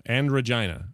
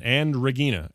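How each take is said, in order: First: And Regina, j sound and long i; alternative pronunciation. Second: Regina with a hard g, "reh-GEE-na"; and Regina, hard g and an "ee" vowel; trying a pronunciation. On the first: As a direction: say Regina to rhyme with China. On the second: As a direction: say Regina as "ruh-GHEE-nuh". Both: Shown as a demonstration. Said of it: "I don't know how you say it".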